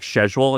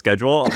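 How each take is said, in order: First: It is said with an Australian pronunciation. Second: It is said with an American pronunciation. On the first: This is how the Australian company says it. "they say words like schedule" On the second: This is how the speaker would say it. "instead of schedule"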